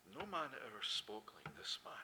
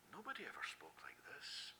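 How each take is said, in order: First: Softer, awed crowd line; awed quote. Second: Awed breathy whisper. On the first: Retold or imitated. Preacher quoting the awed crowd, softer. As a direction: let the crowd's awe hush you. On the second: Acted. Preacher voicing our awe at his words, whispered. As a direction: whisper it like a secret wonder.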